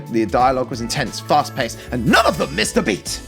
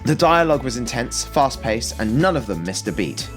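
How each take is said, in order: First: It is read with dramatic, exclamatory energy. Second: It is read in a plain, flat way.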